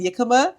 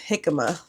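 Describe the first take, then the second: First: The first sound is not an H sound. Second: The first sound is an H sound. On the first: The speaker calls it wrong. "I was saying Yikama" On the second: The speaker calls it right. "the J is supposed to sound like an H"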